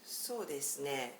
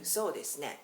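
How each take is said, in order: First: It sounds hesitant and noncommittal. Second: It sounds eager and warmly enthusiastic. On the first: The speaker only tentatively agrees, like maybe. "I'm not sure, but okay, just I agree for now" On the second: The speaker fully agrees with the idea. "I am very much into your idea. I'm totally agreeing with you"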